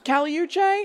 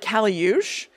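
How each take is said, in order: First: The name is pronounced with Spanish sounds. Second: The name is pronounced with French sounds. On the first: "I pretty much thought it was Caliuche" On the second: "tells you how to pronounce it in French, and so it was like Caliuche"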